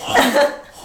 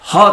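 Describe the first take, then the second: First: It is said in a thin falsetto voice. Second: It is said in a full voice from the belly.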